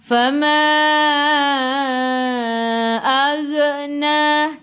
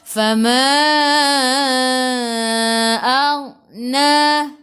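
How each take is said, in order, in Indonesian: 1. Bunyi gh diakhiri dengan lepasan yang memantul. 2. Bunyi gh tetap halus tanpa memantul. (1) "Ag jangan melantun. Jangan ag" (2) "Dia tak melantun"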